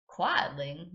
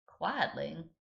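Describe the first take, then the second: First: Put-on American Southern accent, puzzled question; waitress repeats it with Southern accent. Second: Put-on American Southern accent, drawled question; puzzled waitress with American Southern accent. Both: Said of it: "giving her an American southern accent".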